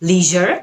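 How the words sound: It is said the American way, like 'lee-zher'. "American অ্যাকসেন্টটা follow করে করেন তাহলে আপনি লিজার এভাবে বলবেন"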